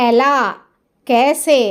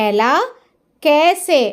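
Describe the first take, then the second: The two takes are said the same way.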